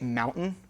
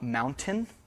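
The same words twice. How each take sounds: First: The middle T is replaced by a glottal stop. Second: The middle T is pronounced as a full T. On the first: This is the New England way of saying it. "this is why we say mountain" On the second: This is not the New England way of saying it. "not mountain"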